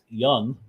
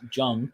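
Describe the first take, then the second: First: The name begins with a Y sound. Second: The name begins with a J sound. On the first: The speaker calls it right. "the pronunciation of the character's last name is Young" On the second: The speaker calls it wrong. "not Jung"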